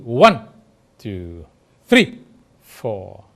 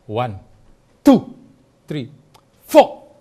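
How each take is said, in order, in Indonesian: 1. Tekanannya jatuh pada one dan three. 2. Tekanannya jatuh pada hitungan kedua. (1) "dia akan kerasnya di one" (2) "tekanan yang lebih keras ada di tel kedua"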